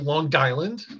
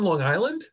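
First: It is said in a local Long Island accent. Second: It is said in a plain, neutral accent.

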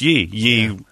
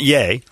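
First: The vowel sounds like the one in 'see'. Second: The vowel sounds like the one in 'say'. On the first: This is the old English way of saying it. The speaker calls it right. "that's the proper English pronunciation. It's Yee" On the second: This is the way the bearer of the name prefers. The speaker calls it wrong. "It's not Yay, like he would prefer"

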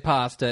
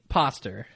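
First: The word ends with a plain 'ah' vowel. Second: The word ends with an 'er' sound, like poster. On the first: "if he were to say pasta" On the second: "it'd be poster"

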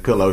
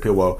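First: The word is said with clear L sounds. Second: The L sounds are replaced with W sounds. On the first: "instead of saying pillow" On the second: "mixes up her L's and her W's"

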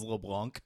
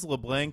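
First: LeBlanc is pronounced with a French vowel. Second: LeBlanc is pronounced with an English A sound. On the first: This is how the kids said it should be. The speaker calls it right. "told us it was LeBlanc" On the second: This is how the family used to say it. The speaker calls it wrong. "we thought our name was LeBlanc"

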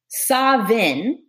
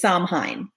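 First: It is said the Scottish Gaelic way. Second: It is said the American way. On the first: "the ancient Scottish Gaelic version of this" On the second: "the American version"

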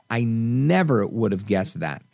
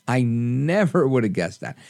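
Both takes have the same delivery.

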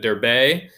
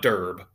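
First: The name is said with two syllables. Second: The name is said with one syllable. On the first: The speaker calls it right. "That's how you say it in Greek" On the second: The speaker calls it wrong. "It's not Derb"

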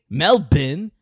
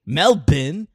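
First: It is said in an Australian accent. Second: The same.

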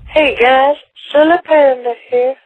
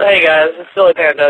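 First: It is said in a put-on voice. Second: It is said in a natural voice.

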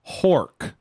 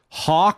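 First: The word has an r sound after the vowel. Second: The word has no r sound after the vowel.

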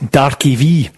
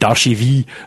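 First: The name is said as 'Darkie V'. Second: The name is said closer to 'Darcheville'. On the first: A made-up pronunciation of the name. The speaker calls it wrong. "he would just make something up" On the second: A closer attempt at the real name. The speaker calls it right. "Still better though"

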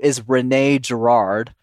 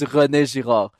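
First: The name is said with an English accent. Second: The name is said with a French accent. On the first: The speaker calls it wrong. "So the English, I guess, pronounce it, which is wrong" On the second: The speaker calls it right. "But the correct pronunciation is"

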